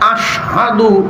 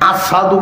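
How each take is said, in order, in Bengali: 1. মাঝের ব্যঞ্জনটি স্পষ্ট 'sh' ধ্বনি। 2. মাঝের ব্যঞ্জনটি সাধারণ 's' ধ্বনি। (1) "এই যে আশহাদু" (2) "আশহাদুর শিন উচ্চারণ হইতো না, আসাদু কইতো"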